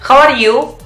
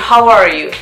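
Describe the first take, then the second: First: It is said with a strong Spanish accent. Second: It is said with a native English accent. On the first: The speaker calls it wrong. "me forzaba a españolizarlo" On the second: The speaker calls it right. "en vez de decir"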